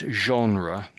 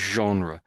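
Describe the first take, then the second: First: It is said with a heavy French accent. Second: It is said without an exaggerated French accent. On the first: The speaker calls it wrong. "I'm saying it in a very French way" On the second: The speaker calls it right. "So it's just genre"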